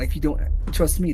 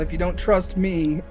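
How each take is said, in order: First: It is said in a put-on character voice. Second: It is said in the speaker's natural voice.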